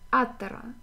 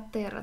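First: The stress is on the first syllable. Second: The stress is on a later syllable. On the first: The speaker calls it right. "Атера читается с первого слога" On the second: The speaker calls it wrong. "А я говорила"

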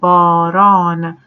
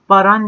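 First: The first a vowel is drawn out long. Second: The first a vowel is short, not drawn out. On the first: The speaker calls it right. "yani A çekiliyor" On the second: The speaker calls it wrong. "Baran demiyoruz mesela"

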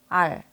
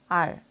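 No difference in how they are said.

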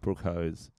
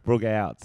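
First: The name is said without its final T sound. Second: The name is said without its initial H sound. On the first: "It's a silent new T" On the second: "It's a silent H"

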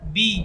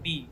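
First: The vowel is long, drawn out. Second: The vowel is short, not drawn out. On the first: "এখানে পরিমাণ টানতে হবে" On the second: "কোনো টান নেই"

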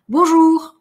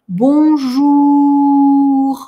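First: The word is said quickly and briefly. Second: The word is stretched out slowly. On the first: "Это коротко" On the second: "Это долго"

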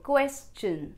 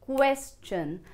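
First: The ending sounds like 'chun'. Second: The ending sounds like 'chun'.

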